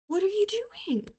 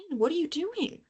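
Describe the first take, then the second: First: Much higher, slow, drawn-out whine; whiny plea to pen. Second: Higher, softer exasperated question to the pen. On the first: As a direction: beg the dead pen like a cartoon. Repeats plea at broken pen. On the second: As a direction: scold the pen in disbelief. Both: Real, not acted.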